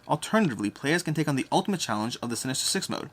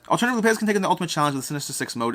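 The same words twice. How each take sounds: First: It is read at a slow pace. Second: It is read at a normal pace. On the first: The speaker calls it wrong. "it hurts to read that slowly" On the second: The speaker calls it right. "Let's go back to normal mode"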